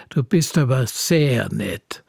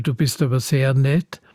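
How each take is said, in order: First: "sehr" drawn out, falling away on "nett"; slow, sarcastic "sehr nett", meaning the opposite; ironic stress. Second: Said in the usual way. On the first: Shown as a demonstration. Poet showing how stress reverses a compliment, ironic emphasis. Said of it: "das ist dann fast das Gegenteil". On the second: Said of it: "nur durch die Betonung das Gegenteil".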